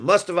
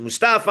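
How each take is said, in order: First: Mustafa stressed on the first syllable, MUS-ta-fa; alternative pronunciation. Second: Mustafa stressed on the second syllable, mus-TA-fa; pronunciation query. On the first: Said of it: "I've heard it both ways". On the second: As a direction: say Mustafa with the weight on STA. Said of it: "how do you pronounce it". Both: Shown as a demonstration.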